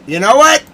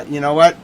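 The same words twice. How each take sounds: First: A much higher, louder shouted "what" that climbs to a peak; worked-up shout before playing the song; angry shout. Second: Said in the usual way. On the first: Real, not acted. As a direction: yell it out, pitch way up. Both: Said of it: "I'm all mad".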